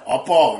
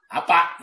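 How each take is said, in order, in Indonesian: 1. Diucapkan dengan logat Jawa Jogja. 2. Diucapkan dengan logat Jawa Banyumas. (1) "Dari Jogja" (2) "Orang Jawa ya, di bagian Banyumas itu"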